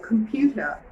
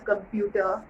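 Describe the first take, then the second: First: The first k has a puff of air. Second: The first k has no puff of air. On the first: The speaker calls it right. "it's a computer ... it's an aspiration" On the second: The speaker calls it wrong. "it's not a computer"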